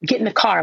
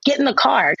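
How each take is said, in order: First: Said in the usual way. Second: Raised, insistent mock command; firmer get in the car. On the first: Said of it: "I tell my kids".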